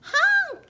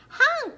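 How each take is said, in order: First: Loud high honk; yelled truck honk. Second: High, mildly alarmed honk; scared honk. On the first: Narrator voicing a dump truck demanding room, yelled honk. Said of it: "yelled a dump truck". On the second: Dump truck stuck in mud, scared honk. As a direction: honk as a frightened truck would. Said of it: "he sounded scared". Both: A narrator's reading.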